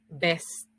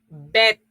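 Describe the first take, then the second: First: It is said with an s before the t. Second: It is said without an s before the t. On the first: The older form of the word. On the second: The modern form of the word.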